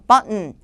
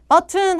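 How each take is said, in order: First: The t is replaced by a glottal stop. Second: The t is fully pronounced as a clear t. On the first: The speaker calls it right. "T가 N에 동화돼서 소리가 안 나게 되는 현상" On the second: The speaker calls it wrong. "button 하면 안 돼요"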